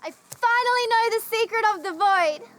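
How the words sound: It sounds happy and delighted.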